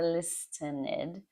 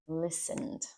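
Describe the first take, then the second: First: The T sound is pronounced in the word. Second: The T sound is silent in the word. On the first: The speaker calls it wrong. "It's not listen or listened or listened" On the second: The speaker calls it right. "That T there is silent. It's listened"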